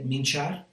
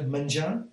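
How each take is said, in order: First: It is said in the apitxat Valencian accent. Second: It is said in a non-apitxat Valencian accent. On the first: "Do you say minchar" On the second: "I would be more likely to say"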